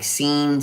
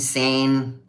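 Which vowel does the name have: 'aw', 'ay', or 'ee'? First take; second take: ee; ay. First: The name is said with an 'ee' vowel. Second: The name is said with an 'ay' vowel. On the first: "The others just botch it" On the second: "all kinds of weird ways"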